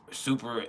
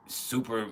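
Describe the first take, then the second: No difference in how they are said.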